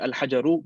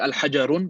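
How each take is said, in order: First: The word ends on a vowel, with no n. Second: The word ends with an added n sound. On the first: The speaker calls it right. "we say al-hajaru" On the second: The speaker calls it wrong. "we don't say al-hajarun"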